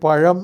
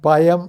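First: The middle consonant is a curled-tongue zh sound. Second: The middle consonant is a plain y sound. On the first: The speaker calls it right. "നീ പഴം എന്ന് പറഞ്ഞു കഴിഞ്ഞാൽ" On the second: The speaker calls it wrong. "അത് പയം ആയിപ്പോകും"

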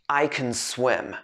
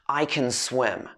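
Both takes have the same delivery.

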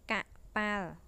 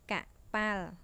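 The two takes are said the same way.

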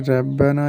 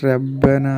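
The two takes are said the same way.

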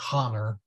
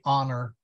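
First: The word begins with an audible H sound. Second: The word begins without an H sound. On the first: The speaker calls it wrong. "We don't say honor" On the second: The speaker calls it right. "H's were silent. We have a little bit of leftover for that. We say honor"

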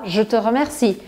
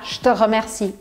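First: Every vowel is said fully, at a steady pace. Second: Some vowels are dropped and it is said faster. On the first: The speaker is being less informal. "se você não quer ser tão informal, você vai falar" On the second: The speaker is being more informal. "se você quer ser mais informal, você vai pronunciar"

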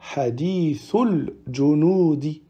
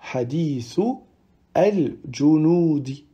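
First: The words are linked, with the alif dropped. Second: The words are separated, with the alif pronounced. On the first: The words are read in one connected flow. "On aurait directement fait la liaison" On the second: Each word is read on its own. "si je lis doucement, je lis mot par mot"

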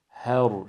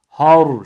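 First: The syllable is light with a thin vowel. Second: The syllable is heavy with an open a vowel. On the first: The speaker calls it right. "Her şeklinde H'yi ince okuyaraktan" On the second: The speaker calls it wrong. "Har şeklinde he kalınlaşmayacak"

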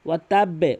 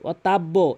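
First: The final sound drops downward. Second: The final sound stays level. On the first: The speaker calls it right. "এখানে কিন্তু ওয়াতাব্বে বলতে হবে।" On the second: The speaker calls it wrong. "এরকম উচ্চারণটি করা যাবে না"

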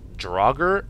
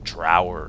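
First: The g sound is pronounced in the word. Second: The g sound is left silent in the word.

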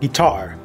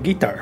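First: The stress is on the last syllable. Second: The stress is on the first syllable. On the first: The speaker calls it right. "es en la última sílaba correctamente" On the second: The speaker calls it wrong. "he escuchado a muchas personas decir guitar"

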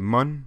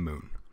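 First: The vowel is short, rhyming with fun. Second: The vowel is long, rhyming with spoon. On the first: "most people will say Mun, and that's the correct pronunciation" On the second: "I like saying that I'm landing on the moon"

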